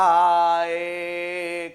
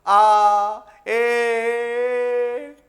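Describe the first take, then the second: First: Meaningless vowel sounds. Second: Loud, drawn-out "aa", then a higher, odd "eh"; meaningless vowel sounds. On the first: Teacher repeating meaningless sounds for the class, drawn-out vowels. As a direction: repeat the senseless sounds as an example. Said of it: "ये क्या बोला मैंने?". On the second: Teacher demonstrating a meaningless sound to students, drawn-out vowels. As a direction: make a sound that means nothing. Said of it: "है ना, ये भी ध्वनि है ना". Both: Shown as a demonstration.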